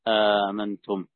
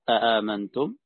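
First: The second glottal stop becomes a long vowel. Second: Both glottal stops at the start are pronounced. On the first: "وإبدال الثانية ألفا" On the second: "بتحقيق الهمزتين"

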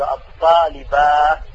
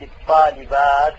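First: The word ends with an h sound at the pause. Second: The word ends with a t sound at the pause. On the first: This is a rare way of pausing used by some. The speaker calls it wrong. "يقف بالهاء فيقول الطالبات" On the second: This is the more eloquent, common way of pausing. The speaker calls it right. "فالأفصح الوقف بالتاء لا بالهاء"

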